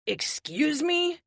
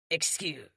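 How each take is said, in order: First: High, slow, drawn-out disbelieving rise on "me"; incredulous. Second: Said in the usual way. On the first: Acted. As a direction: stretch "excuse me" up in shock. Triple stunned by accusation.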